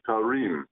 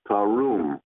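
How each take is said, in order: First: The second syllable has an ee vowel. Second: The second syllable has an oo vowel. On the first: This follows the written spelling of the word. The speaker calls it wrong. "If I were to pronounce it the way it's written" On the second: This is how the word is actually read. The speaker calls it right. "but it's tarum"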